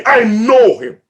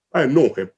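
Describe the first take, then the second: First: Said in the usual way. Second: Hushed echo. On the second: Real, not acted. Hushed echo of God's words.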